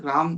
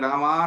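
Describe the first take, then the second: First: The word ends on the consonant m. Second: The word ends in a long drawn-out vowel. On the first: "राम भी नहीं" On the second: "लंबी भी नहीं, रामा नहीं"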